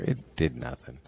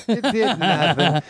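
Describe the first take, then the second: First: Said in the usual way. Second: High, slow laughing repeat; laughing disbelief. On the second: Shown as a demonstration.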